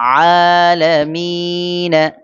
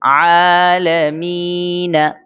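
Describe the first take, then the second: The two takes are said the same way.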